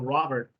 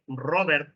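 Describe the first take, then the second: First: The R is said the English way. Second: The R is said the Spanish way. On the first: The speaker calls it right. "instead of Robert" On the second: The speaker calls it wrong. "We say Robert"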